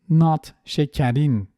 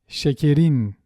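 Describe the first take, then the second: First: The second vowel is an open 'a'-like sound. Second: The second vowel is a closed 'e' sound. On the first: The speaker calls it wrong. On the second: The speaker calls it right. "this A sound becomes the normal E again"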